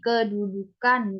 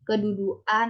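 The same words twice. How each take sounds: First: The K in the middle is said clearly. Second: The K in the middle is not said clearly. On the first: The speaker calls it right. "Diucapkannya seperti tadi" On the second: The speaker calls it wrong. "Bukan dengan"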